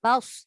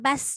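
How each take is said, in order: First: The s sound is heavy and rounded. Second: The s sound is light and plain. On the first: The speaker calls it right. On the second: The speaker calls it wrong. "Jangan bas"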